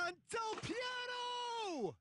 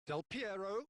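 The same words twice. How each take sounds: First: Piero stretched high and slow; excited shout. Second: Said in the usual way. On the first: Real, not acted. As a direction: hold the name up high as he strikes. Big chance called.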